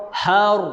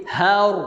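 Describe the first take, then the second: No difference in how they are said.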